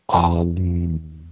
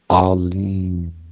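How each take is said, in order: Both takes have the same delivery.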